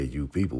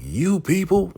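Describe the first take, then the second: First: Said in the usual way. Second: High, loud indignant outburst; acted outrage, YOU PEOPLE thrown out loud and high; mock outraged sheriff. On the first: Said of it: "you know, when they say". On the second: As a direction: go off on them, pitched way up. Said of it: "So he's going off".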